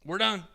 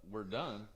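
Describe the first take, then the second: First: High, firm declaration ending the session; abrupt announcement. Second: Baffled echo. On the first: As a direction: declare WE'RE DONE high and final, imitating the tattooer. Tattooer abruptly ends the session. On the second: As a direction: echo WE'RE DONE quietly, not believing it. Baffled client echoes the tattooer. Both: Retold or imitated.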